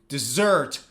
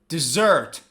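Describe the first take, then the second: Both takes have the same delivery.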